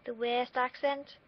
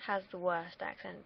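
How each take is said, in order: First: Slow, higher Liverpool accent. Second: Said in the usual way. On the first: Shown as a demonstration. Vlogger mocking the Liverpool accent, in a Liverpool accent. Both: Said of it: "if I try to do that".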